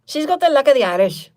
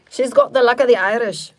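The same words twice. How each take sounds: First: Loud, high, hammed-up Irish brogue; attempted Irish accent. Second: Loud, higher mock Irish accent slipping into British; British-sounding Irish attempt. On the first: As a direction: have a big second go at an Irish accent. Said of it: "what the hell is an Irish sound?". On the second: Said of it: "I think that's British".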